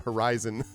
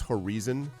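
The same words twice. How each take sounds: First: It is said with an American accent. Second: It is said with a Brazilian accent. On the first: "until the fourth speaker American" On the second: "three Brazilian presenters in a row pronouncing horizon as"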